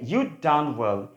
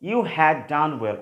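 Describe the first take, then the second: First: You had is shortened to one syllable. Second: You had is said as two full words. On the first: "contracted form যদি বলি আমরা ইউড" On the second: "ইউ হ্যাড হচ্ছে long form"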